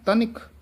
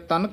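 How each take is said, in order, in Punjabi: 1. ਵਿਚਕਾਰਲੇ ਅੱਖਰ ਵਿੱਚ ਛੋਟੀ ਇ ਦੀ ਮਾਤਰਾ ਹੈ। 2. ਵਿਚਕਾਰਲੇ ਅੱਖਰ ਵਿੱਚ ਕੋਈ ਇ ਦੀ ਮਾਤਰਾ ਨਹੀਂ ਹੈ। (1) "ਤਨਿਕ ਉਚਾਰਨ ਕਰਨਾ ਹੈ" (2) "ਤਨਕ ਨਹੀਂ ਕਹਿਣਾ"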